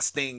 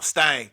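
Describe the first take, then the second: First: The name is said in a standard accent. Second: The name is said in a Southern accent.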